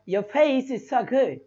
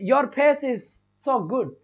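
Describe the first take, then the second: First: It is said with an English accent. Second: It is said with an Indian English accent. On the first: The speaker calls it right. "अंग्रेज कैसे बोलेगा" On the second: The speaker calls it wrong. "जैसे हम कैसे"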